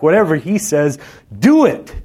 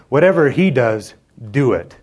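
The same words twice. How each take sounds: First: High, loud climbing command peaking on do it; exclamation. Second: Said in the usual way. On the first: Shown as a demonstration. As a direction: deliver it like an exclamation mark, rising to a cry. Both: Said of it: "There should be an exclamation mark".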